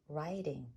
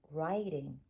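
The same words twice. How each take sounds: The two takes are said the same way.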